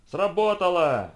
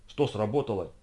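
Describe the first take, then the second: First: Loud, high, drawn-out cry; exclaiming. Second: Understated puzzled question. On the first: Photographer as the trap snaps shut, exclaiming. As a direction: exclaim it slowly at full voice. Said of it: "воскликнул Джон Толкер". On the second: Policemen asking the photographer what happened, puzzled. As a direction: ask it in mild bewilderment. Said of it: "недоумевали полицейские". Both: A narrator's reading.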